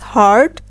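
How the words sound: The R sound at the end is pronounced. "In American English, we will pronounce it as hard"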